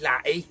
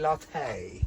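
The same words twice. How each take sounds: First: The word is said in an ordinary, everyday way. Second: The word is said in a posh, refined way. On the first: This is how regular people say it. "We say latte" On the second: This is how upper-class people say it. "Posh people say latte"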